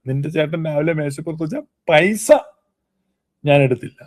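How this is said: The stress falls on the word പൈസ. Other things may have been taken instead. "പൈസ എടുത്തില്ല"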